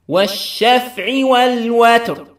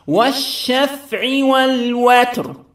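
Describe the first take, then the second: The two takes are said the same way.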